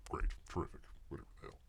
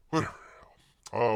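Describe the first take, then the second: First: Whispered aside. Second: Said in the usual way. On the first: Real, not acted. Muttering to himself at the screen.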